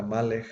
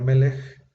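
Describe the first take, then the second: First: Malech with an open a in the first syllable; old pronunciation. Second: Melech with e in both syllables; modern pronunciation. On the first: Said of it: "la vocalización antigua era Malech". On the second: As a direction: say Melech with two short e sounds, stress on the first. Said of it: "En lugar de Melech". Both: Shown as a demonstration.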